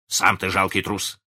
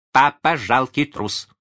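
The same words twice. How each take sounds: First: Retorting father. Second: High, loud, drawn-out taunt; taunting child. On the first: Father answering his small son's taunt, childishly retorting. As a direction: throw the insult straight back. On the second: Small son calling his father coward, taunting. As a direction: jeer slowly in a child's high voice. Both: A narrator's reading.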